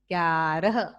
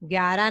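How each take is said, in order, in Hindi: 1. सावधानी से बोला गया, हर ध्वनि स्पष्ट। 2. ढीले ढंग से बोला गया, ध्वनियाँ आपस में घुल गईं।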